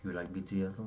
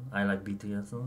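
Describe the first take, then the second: First: Put-on playful Korean-accented English. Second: Put-on light Korean parody accent. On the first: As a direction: ask it in a light Korean parody accent. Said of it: "You have to say the whole thing". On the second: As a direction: say it in a mock Korean-accented English. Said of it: "Korean parody voice".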